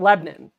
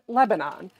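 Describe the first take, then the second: First: It is said the local Southwest Virginia way. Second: It is said the usual, country-name way. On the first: This is how locals say the town's name. The speaker calls it right. "Lebanon. That's how you pronounce it" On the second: This is how most people say the name. The speaker calls it wrong. "we pronounce it Lebanon"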